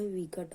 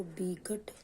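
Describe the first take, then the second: First: विकट said as vikat with a clear v; correct v sound. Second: विकट said as bikat with a b; wrong b sound. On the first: Teacher demonstrates correct विकट with v. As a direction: say विकट rightly with v. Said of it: "विकट होगा व". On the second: Teacher demonstrates wrong विकट with b. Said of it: "विकट ना होगा". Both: Shown as a demonstration.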